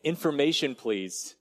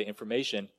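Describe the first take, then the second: First: Light call of information please, dropping on please; a child's polite request on the phone; boy asking the operator. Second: Softer, lower operator's answer. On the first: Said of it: "you said". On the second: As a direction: answer the line like a calm operator. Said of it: "someone would respond back and say". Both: Retold or imitated.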